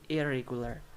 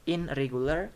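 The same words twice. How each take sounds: First: "irregular" with no n; n melted into r in "irregular"; assimilated IRREGULAR. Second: "in regular" with a clear n; n and r both sounded in "in regular"; unassimilated IN REGULAR. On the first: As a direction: say "ir-regular", r for n. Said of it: "This is complete assimilation". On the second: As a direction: keep n before r in "in regular". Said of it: "So, ne turns to re". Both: Shown as a demonstration.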